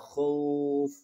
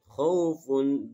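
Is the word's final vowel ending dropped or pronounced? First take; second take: dropped; pronounced. First: The word ends without its final vowel ending. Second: The word ends with its full vowel ending. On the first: The reader stops at this word. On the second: The reader continues without stopping.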